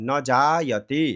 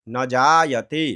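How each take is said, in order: The two takes are said the same way.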